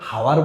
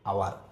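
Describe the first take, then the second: First: The word starts with an h sound. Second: The word starts with a vowel sound. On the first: The speaker calls it wrong. "হাওয়ার বলি না আওয়ার বলি" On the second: The speaker calls it right.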